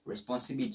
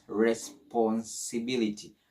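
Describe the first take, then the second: First: Said in the usual way. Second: Slow "Responsibility", split as res-pon-si-bility; broken into syllables. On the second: Shown as a demonstration. Teacher shows how to read a long word, "Responsibility" slowly in chunks. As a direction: break "Responsibility" down piece by piece. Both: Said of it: "break it down into simple, pronounceable word".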